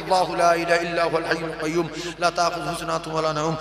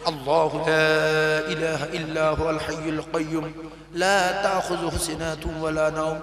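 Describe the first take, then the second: First: It is recited very fast. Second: It is recited slowly and carefully.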